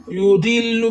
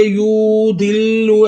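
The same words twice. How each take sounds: First: युदिल्लु said short, vowels not stretched; correct short vowel. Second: युदिल्लु said wrongly, with a doubled, held l; युदिल्लु with a lengthened ll, marked as incorrect; wrong way shown. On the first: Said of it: "युदिल्लु बगैर खींचे पढ़े". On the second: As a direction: demonstrate the mistake in युदिल्लु by leaning on the l. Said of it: "युदिल्लु ऐसे नहीं पढ़ना". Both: Shown as a demonstration.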